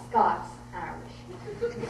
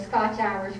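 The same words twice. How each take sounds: First: "Scots-Irish", first word ending like "lots". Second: "Scotch-Irish", first word ending like "watch"; Scotch-Irish, with "tch". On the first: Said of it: "Scots-Irish is a European term". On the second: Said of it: "We are not Scots-Irish". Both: Shown as a demonstration.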